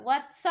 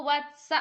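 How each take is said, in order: Both takes have the same delivery.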